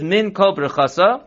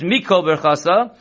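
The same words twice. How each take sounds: First: Min Kol Birchasa spoken as three distinct words: min, then kol, then birchasa; three separate words. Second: Mikol Birchasa with min and kol run together as one word, mikol; fuse Mikol into one word before Birchasa; joined into two words. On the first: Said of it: "that's three separate words". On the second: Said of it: "you join it into two words". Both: Shown as a demonstration.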